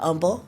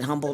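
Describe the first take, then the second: First: The word starts without any H sound. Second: The word starts with a pronounced H sound.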